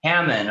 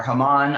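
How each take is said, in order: First: "Haman" with a flat a as in ham. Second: "Haman" with an open ah in the second syllable; Haman as huh-MAHN. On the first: Teacher unsure of the name, Haman as HAM-un. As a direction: say "Haman" as HAM-un, short a, stress first. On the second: Teacher offering another guess, Haman as huh-MAHN. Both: Shown as a demonstration. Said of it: "I don't know how to pronounce his name".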